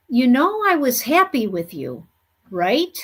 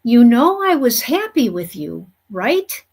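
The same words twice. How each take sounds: First: You know I was happy with you, right? as a gentle questioning fall; the spirit wife's questioning tune, with "I" prominent; retold intonation. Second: "I" stressed, rising questioning tune on right?; repeated intonation. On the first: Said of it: "exactly like this, with this intonation in her voice". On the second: Retold or imitated. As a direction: echo her questioning tune gently to the husband. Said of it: "I'm gonna try to repeat this exactly how she said it to me".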